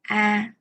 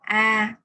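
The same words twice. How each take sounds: No difference in how they are said.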